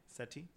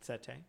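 First: Very soft, rising "Settee" said seh-TEE; "Settee" rhyming with "tea", unsure; settee ending in "tee". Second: Soft, rising "Settee" said seh-TAY; "Settee" rhyming with "say", unsure; settee ending in "tay". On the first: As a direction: try "Settee" with a final TEE. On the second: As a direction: try "Settee" with a final TAY. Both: Shown as a demonstration.

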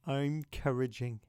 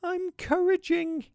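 First: Lower, softer, sighing repeat; soft tender echo. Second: Put-on very high, slow little-child voice; tiny voice. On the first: Real, not acted. Host lovingly echoes the toddler's phrase to listeners, soft and sighing. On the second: Three-year-old James answers his dad through tears, tiny-voiced. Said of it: "said in a tiny voice".

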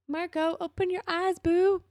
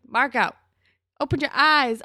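First: High-pitched cooing plea; affectionate coaxing. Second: Loud, higher, emphatic order; exasperated scolding. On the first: Viewer to scared, insecure Marco, gently coaxing. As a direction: coax him sweetly, high up in the voice. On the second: Viewer to Marco missing Dylan's interest, exasperated. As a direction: call it out loudly, fed up with him. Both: Pretend.

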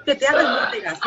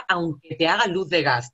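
First: High, louder mock-romantic line; mock poetic. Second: Sung, slow, lingering mock love line; sung, draw it out like a ballad; mock romantic crooning. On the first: Mocking the term as if reciting a love poem. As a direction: ham up a dreamy declaration. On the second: Sung, ironic love song line about gaslighting, slow. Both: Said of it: "Tía, suena poético".

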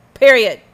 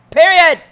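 First: 1 emphatic period. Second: Higher and louder, slammed down; final loud period; louder emphatic period. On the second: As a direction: hit it harder the second time. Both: Real, not acted.

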